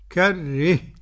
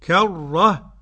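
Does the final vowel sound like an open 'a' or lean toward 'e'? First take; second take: toward e; open a. First: The final vowel leans toward an 'e' sound. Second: The final vowel is an open 'a' sound. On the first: "والإمالة" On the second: "الفتح"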